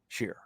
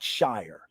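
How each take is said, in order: First: The vowel sounds like the word sheer. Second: The vowel sounds like the word shire. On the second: "It's not Shire"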